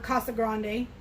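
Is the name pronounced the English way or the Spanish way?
Spanish. The name is said with a Spanish pronunciation.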